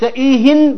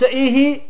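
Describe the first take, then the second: First: The word ends in a vowel plus n. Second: The word ends in a vowel without n. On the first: Tell me more of any talk at all. "وإذا قلت إيهن بالتنوين من أي حديث" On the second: Tell me more of this particular talk. "إذا قلت إيهي يعني زدني من الحديث المعين"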